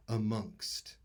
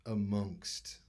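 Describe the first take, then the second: First: Amongst said primly, extra proper; fussy amongst. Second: Said in the usual way. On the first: Shown as a demonstration. People sounding extra proper, saying amongst. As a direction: amongst with a posh, careful touch. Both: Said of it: "they'll use the word".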